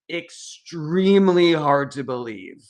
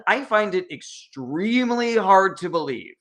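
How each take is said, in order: First: Slow, weight on extremely; extremely stretched and stressed in disbelief; emphatic repeat. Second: Said in the usual way. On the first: Real, not acted. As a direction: lean hard on extremely, slow the phrase down.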